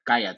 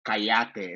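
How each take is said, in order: First: Said in the usual way. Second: "Cállate" stressed on the middle syllable, ca-YA-te; voseo pronunciation. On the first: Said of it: "instead of". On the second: Shown as a demonstration. TikTok creator showing her Honduran form, stress on YA in "Cállate". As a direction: say "Cállate" with the weight on YA. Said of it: "Why'd you say it like that?".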